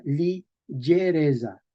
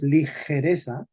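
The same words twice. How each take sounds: First: Ligereza slowly as li-zhe-RE-dza; medieval pronunciation. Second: Said in the usual way. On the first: Shown as a demonstration. Teacher contrasting with modern Spanish, medieval pronunciation. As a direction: stretch ligereza with zh and a buzzed z. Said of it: "en español medieval se leía". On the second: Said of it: "En español moderno decimos".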